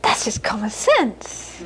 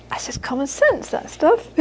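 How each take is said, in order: First: Slow, laughing, dismissive mother; matter-of-fact mother. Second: Lightly voiced dismissive mother; mother shrugging off. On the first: Retold or imitated. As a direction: shrug it off slowly with a laugh. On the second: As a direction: brush it aside casually. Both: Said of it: "She'd say".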